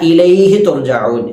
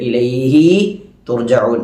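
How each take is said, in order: First: The hi syllable is short before tu. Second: The hi syllable is drawn out long. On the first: The speaker calls it right. "ഹാ പറഞ്ഞ ഉടനെ തന്നെ തു പറയണം" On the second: The speaker calls it wrong. "ഹാ ഇനെ നീട്ടിക്കൊണ്ട്"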